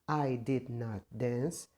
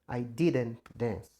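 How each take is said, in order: First: Did and not are said as two separate words. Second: Did and not are joined into one contracted word. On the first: It is the more formal way to say it. "a maneira mais formal possível" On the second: It is the more colloquial, less formal way to say it. "uma maneira contraída, onde eu junto o did mais o not"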